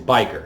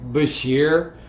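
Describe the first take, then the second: First: It is said like 'bi-ker', with a 'k' sound. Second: It is said like 'ba-sheer', with a 'sh' sound. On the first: The speaker calls it right. "the correct pronunciation is biker" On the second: The speaker calls it wrong. "I used to say Bashir"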